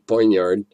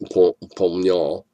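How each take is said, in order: First: The word is said with an American pronunciation. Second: The word is said with a French pronunciation. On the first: "way most of us in America pronounce it" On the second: "if you're French"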